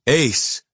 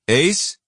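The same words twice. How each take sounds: First: It is said flatly with concern. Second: It is asked as a rising question.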